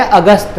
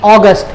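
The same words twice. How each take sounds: First: अगस्त said as "a-gast" with a dental t; Hindi pronunciation. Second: अगस्त said as "aw-gust" with a hard t; English pronunciation. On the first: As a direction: say अगस्त Hindi-style, opening on a short "a". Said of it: "हिंदी में बोलते हैं". (अगस्त का हिंदी उच्चारण, "अ-गस्त") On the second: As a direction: say अगस्त English-style, opening on "aw". English name before the Hindi one. (अगस्त का अंग्रेज़ी उच्चारण, "ऑगस्ट") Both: Shown as a demonstration.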